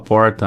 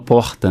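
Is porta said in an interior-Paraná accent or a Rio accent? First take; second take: interior-Paraná; Rio. First: It is said in an interior-Paraná accent. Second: It is said in a Rio accent. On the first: This is how someone else says it. "minha namorada que fala porta" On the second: This is how the speaker says it himself. "Mas eu falo porta"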